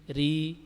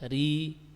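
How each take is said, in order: The two takes are said the same way.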